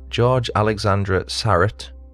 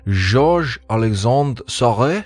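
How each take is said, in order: First: The name is said with an English pronunciation. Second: The name is said with a French-style pronunciation.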